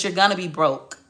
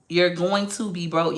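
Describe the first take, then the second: First: Said in the usual way. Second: GOING TO said slowly in full; emphatic restatement. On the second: Real, not acted. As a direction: spell out "going to be broke" slowly, word by word. Repeats line slower for emphasis.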